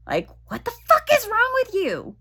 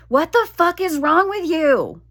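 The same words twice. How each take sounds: First: Much higher exasperated outburst; mock exasperation. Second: Higher, louder exasperated scolding; mock yelling. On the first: Retelling her outburst at her own body, high mock exasperation. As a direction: squeal the frustration out, pitched way up. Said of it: "like, come on". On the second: Yelling at her own body while building a bookshelf, mock scolding. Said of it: "I was yelling at my vagina".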